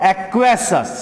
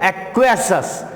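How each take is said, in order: The two takes are said the same way.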